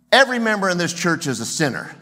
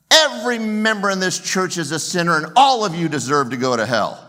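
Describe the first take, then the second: First: Loud, fast pulpit thunder; thundering preacher. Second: Much higher, louder hellfire warning; louder preacher thunder. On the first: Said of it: "He thunders on a Sunday morning". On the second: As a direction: raise it to a hellfire roar. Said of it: "he looks up again and he says". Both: Retold or imitated.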